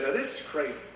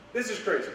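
First: Said in the usual way. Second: "This is crazy" said much higher, hitting "This"; stress on this. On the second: Shown as a demonstration. Preacher repeats it to the congregation, pitched higher on "This". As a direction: lift and punch "This" in "This is crazy".

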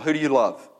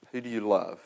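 First: Said in the usual way. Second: Softer, lower, searching question; hushed repeated question. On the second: Shown as a demonstration. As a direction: let the question sink in quietly. Question repeated softly after pause.

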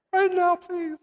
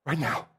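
First: Put-on very high, squeaky child's plea; mock frightened plea. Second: Said in the usual way. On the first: Fifth grader begging to be baptized after scary film strip, mock frightened. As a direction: beg in a tiny, high mock-panicked voice.

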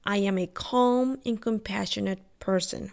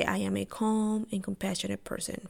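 First: Said in the usual way. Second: The mantra again, much softer; softer repeat. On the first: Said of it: "every morning I repeat to myself". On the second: Shown as a demonstration. Repeating her morning mantra to herself, much softer. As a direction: let it sink in, murmured to herself. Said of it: "I say".

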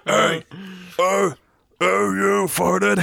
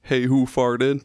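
First: Higher, slow, hammed-up monster voice; Cookie Monster voice. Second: Slow, lightly growled monster voice; a half-hearted Cookie Monster growl, slowly. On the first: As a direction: belt it slowly like a cartoon monster. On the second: Retold or imitated. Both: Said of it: "but, like, in a Cookie Monster voice".

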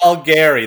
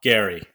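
First: Calgary with a loud stress on CAL; Calgary said the local way. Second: Calgary run together as CAL-gree; Calgary said the local way. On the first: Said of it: "That's how you say it". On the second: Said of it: "if you say it that way". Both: Shown as a demonstration.

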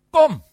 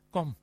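First: Loud, high-pitched order; commanding. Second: Said in the usual way. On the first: Acted. Preacher voices Jesus ordering Peter out onto the water, commanding. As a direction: call it out as a forceful command. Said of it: "hij beveelt het".

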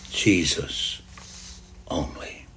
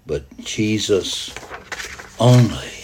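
First: Low, very soft, falling away; hushed echo. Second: Said in the usual way. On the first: Acted. Preacher repeats the reading's last words, hushed echo. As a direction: let the words sink to a near-whisper.

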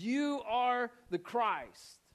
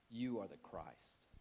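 First: Very slow, high-pitched proclamation; emphatic declaration. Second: Slow, low and soft; hushed confession. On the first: Preacher affirming Peter gets it right, emphatic declaration. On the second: Peter answering Jesus who he is, hushed confession. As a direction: say it slowly, quietly and low. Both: Retold or imitated.

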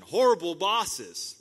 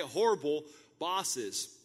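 First: Loud, slow Horrible bosses; drawn-out loud stress on Horrible; emphatic call. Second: Said in the usual way. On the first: Real, not acted. Preacher calling out to the congregation, loud and slow. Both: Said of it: "repeated for emphasis".

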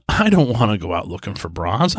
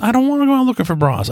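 First: Said in the usual way. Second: Much higher, faster protesting repeat; higher, quicker exasperated protest. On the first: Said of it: "repeated line". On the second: Retold or imitated. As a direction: push back, half laughing, in exasperation. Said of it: "repeated louder".

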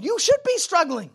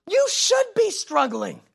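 First: Emphatic declaration. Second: Slower emphatic repeat. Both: Real, not acted.

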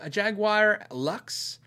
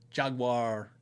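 First: Jaguar said slow as jag-wire, three syllables; drawn out Jaguar with the wire ending. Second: Jaguar said as jag-wah, two syllables, no r. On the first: Reading a viewer's comment, Jaguar as jag-wire. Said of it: "I said Jaguar". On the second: Correcting himself on camera, Jaguar as jag-wah. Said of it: "I don't know why I say Jaguar". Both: Shown as a demonstration.

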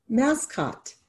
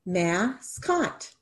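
First: Said in the usual way. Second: Soft, slow, split into mas and cot; syllables tapped out. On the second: Shown as a demonstration. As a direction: tap out each syllable of Mascot. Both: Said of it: "How many syllables?".

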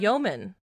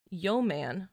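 First: "yeoman" as YOH-mun, unstressed second syllable; corrected pronunciation. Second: "yeoman" said as "yo man", full vowel in "man"; yo-man mispronunciation. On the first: Reader echoing the co-host's correction, "yeoman" as YOH-mun. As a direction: reduce the end of "yeoman" to a quick "mun". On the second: Reader trying an unknown word, mispronounced "yeoman" as yo-man. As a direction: sound out "yeoman" slowly as YO-MAN. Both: Real, not acted. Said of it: "Is that how you say it?".

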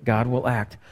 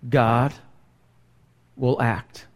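First: Said in the usual way. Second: "God... will act", low, with a long pause after GOD; dramatic pause. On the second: Real, not acted. Preacher warns those who continue in sin, weighty pause. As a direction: let GOD stand alone, then drop softly onto "will act".

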